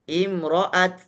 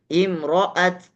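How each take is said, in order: The two takes are said the same way.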